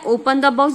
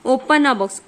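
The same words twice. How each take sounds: First: The pressed firmly in "Open the box"; teacher pressing the to mean one particular box; stress on the. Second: Said in the usual way. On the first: Shown as a demonstration. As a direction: lean on the word the in "Open the box". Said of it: "क्या लिखा है?". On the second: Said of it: "ये तो कोई सा भी box".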